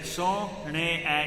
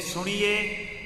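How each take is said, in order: First: The word ends in an 'a' sound. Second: The word ends in an 'e' sound. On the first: The speaker calls it right. "You recite that word as I have said it" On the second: The speaker calls it wrong. "We don't say Soniye"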